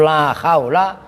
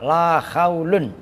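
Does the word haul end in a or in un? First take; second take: a; un. First: The word haul ends with a short a. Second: The word haul ends with un. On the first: The noun is fixed with fatha after la. "itu la haula itu mabni fatah" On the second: The noun is read in the nominative case. "dan dibaca rofa"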